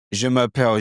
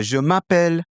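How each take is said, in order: First: Je m'appelle in a British accent; English-accented French. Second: High French-accented je m'appelle; native French accent. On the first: Teacher contrasting accents for learners, English-accented French. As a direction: introduce yourself in English-sounding French. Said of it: "So the bonjour is English". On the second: Teacher switching into Clément, native French accent. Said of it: "now I'm adopting that character". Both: Shown as a demonstration.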